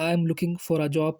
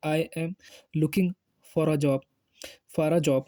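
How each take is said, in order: First: Slow, careful English model sentence; slow demo. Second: "I am", "looking", "for a job" split by pauses; word by word. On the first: Teacher showing job seekers how to say it, slow. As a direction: say it slowly so students can copy. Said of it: "किस तरीके से बोलेंगे". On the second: Teacher breaking the sentence apart for learners, word by word. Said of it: "यानी". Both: Shown as a demonstration.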